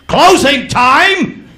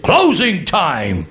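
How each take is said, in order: First: Booming drill sergeant call, high and loud; Marine sergeant. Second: Slow drawn-out sergeant call, lightly voiced; Marine sergeant. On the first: Retold or imitated. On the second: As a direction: call closing like a gruff sergeant. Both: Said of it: "he sounded like a Marine sergeant".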